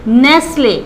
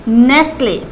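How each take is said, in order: Both takes have the same delivery.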